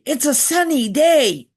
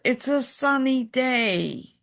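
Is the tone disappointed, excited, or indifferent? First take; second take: excited; disappointed. First: It is said in an excited, happy tone. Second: It is said in a disappointed, let-down tone. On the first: The speaker is glad about the weather. "we'd be excited" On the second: The speaker wished it were raining.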